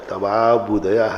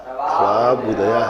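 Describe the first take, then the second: Both takes have the same delivery.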